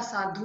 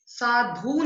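First: Said in the usual way. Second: साधु with a stretched "dhoo"; wrong long ending. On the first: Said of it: "होता है". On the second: Shown as a demonstration. Teacher correcting a mistake, साधु with long dhoo. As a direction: draw out the end of साधु. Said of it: "नहीं होता".

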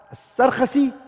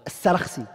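First: As-Sarkhasi as sar-KHA-si, kh opening the middle syllable; first pronunciation. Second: As-Sarakhsi as sa-RAKH-si, kh closing the middle syllable; second pronunciation. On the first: Teacher contrasting the two forms for students, As-Sarkhasi first. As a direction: say As-Sarkhasi with the kh leading into a. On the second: Teacher contrasting the two forms for students, As-Sarakhsi second. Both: Shown as a demonstration. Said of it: "Both ways you can say it".

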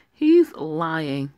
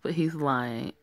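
First: "He's lying" pushed out louder; indignant louder accusation; louder protest. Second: Said in the usual way. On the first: Acted. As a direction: insist over him. Arguing against the faking patient.

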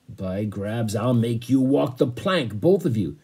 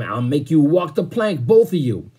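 First: Said in the usual way. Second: Louder, higher, blustering threat; angry threat. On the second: A narrator's reading. Captain threatening two stowaways with the plank, angry shout.

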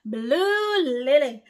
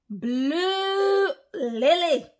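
First: Slow, drawn-out name, louder; stretched call. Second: High, slow, stretched-out name; drawn-out call. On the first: Preacher calling a follower's name out slowly and loudly. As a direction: call the name out long again. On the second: Preacher stretching a follower's name high and slow. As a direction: sing out the name long and high. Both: Real, not acted. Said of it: "I'm gonna lose my voice over Blue Lily".

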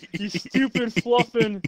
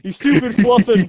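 First: Country voice. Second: Loud country yell. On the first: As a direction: try the line in a light Southern voice. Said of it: "I'll do my good country voice this time". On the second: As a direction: yell it like a furious country boy. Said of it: "Say, say, say the". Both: Pretend.

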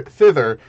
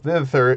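First: Thither repeated louder on its own; stressed repeat. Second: Said in the usual way. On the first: Shown as a demonstration. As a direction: Thither set apart and stressed, falling.

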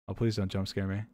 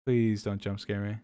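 First: Soft, nervous begging; quietly plead, dreading the scare; scared pleading. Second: Slow, hushed nervous plea; drawn-out quiet begging, bracing; scared slow pleading. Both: Real, not acted. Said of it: "My heart is beating".

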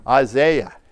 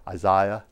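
First: British-style "Isaiah", second syllable as ZAY; British accent. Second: Said in the usual way. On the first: Shown as a demonstration. Preacher showing the congregation a British accent on "Isaiah". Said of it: "if I say it with that British accent". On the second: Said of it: "the way I normally say it".

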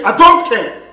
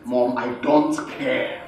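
First: Loud, forceful refusal; heated defiance. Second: Low, slow, quiet refusal; controlled defiance. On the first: Son insisting to his mother, heated defiance. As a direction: hit "I don't care" hard with raised voice. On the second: Son refusing his mother, controlled defiance. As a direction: hold "I don't care" down, low and deliberate. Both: Acted.

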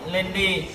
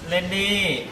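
Both takes have the same delivery.

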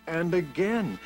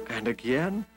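No difference in how they are said.

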